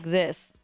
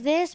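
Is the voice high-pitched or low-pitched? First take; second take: low-pitched; high-pitched. First: It is said in a lower, deeper voice. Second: It is said in a high, childlike voice.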